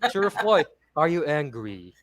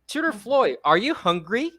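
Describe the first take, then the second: First: The pitch falls at the end. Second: The pitch rises at the end. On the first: The speaker calls it wrong. "you don't say that, right?" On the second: The speaker calls it right. "Here's an example of a yes or or no question"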